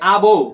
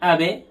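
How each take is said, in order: First: The b bounces with an 'o'-like echo. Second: The b bounces with an 'e'-like echo. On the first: The speaker calls it wrong. "অনেকে আবো বলে" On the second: The speaker calls it right. "বার এগুলির কলকলাটা নিচের দিকে যায়। যেমন আবে"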